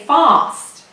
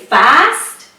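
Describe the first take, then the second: First: The word is said with a British accent. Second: The word is said with an American accent. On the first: "British people would say fast" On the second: "if you start speaking in American English and if you say fast"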